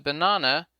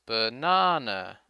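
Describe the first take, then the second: First: Said in the usual way. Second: Slow "banana" with the middle "na" stretched; stressed long NA. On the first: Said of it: "The word banana is a good example". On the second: Shown as a demonstration. Teacher showing the stressed syllable, a long middle "na" in "banana". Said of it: "the stressed syllable na is longer".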